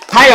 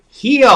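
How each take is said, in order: First: The vowel sounds like the one in 'smile'. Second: The vowel sounds like the one in 'heel'. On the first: The speaker calls it right. "It's Smile, Heil" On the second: The speaker calls it wrong. "I get Heal on the mind"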